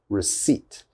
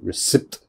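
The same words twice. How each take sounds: First: The P sound is silent. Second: The P sound is pronounced. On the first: The speaker calls it right. "We do not pronounce the P" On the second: The speaker calls it wrong. "That is definitely wrong"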